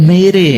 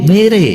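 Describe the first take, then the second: No difference in how they are said.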